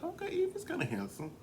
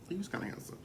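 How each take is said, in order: First: Pitched way up, mock surprised; surprised realization. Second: Said in the usual way. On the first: Realizing Evie is handsome, pitched way up in surprise. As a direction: squeal it like a sudden discovery. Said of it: "now I'm like". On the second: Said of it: "repeated flat".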